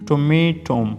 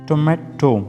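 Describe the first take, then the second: First: It is said in an American accent. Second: It is said in a British accent. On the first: "In American pronunciation" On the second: "In British pronunciation"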